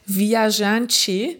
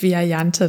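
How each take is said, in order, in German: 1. Das Wort wird mit portugiesischen Lauten ausgesprochen. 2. Das Wort wird mit deutschen Lauten ausgesprochen. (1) "eigentlich ist es Portugiesisch und heißt Viajante" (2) "im Umgangssprachlichen hier auch eingedeutscht"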